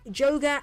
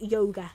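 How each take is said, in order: First: The name begins with a J sound. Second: The name begins with a Y sound. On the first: "the J is actually pronounced as a like J" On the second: "it's pronounced with a Y"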